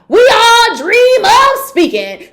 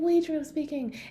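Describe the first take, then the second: First: It is said very loudly and forcefully. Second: It is said very softly and quietly.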